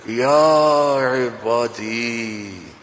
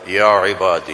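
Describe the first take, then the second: First: It is said in a tender, loving tone. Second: It is said in a plain tone.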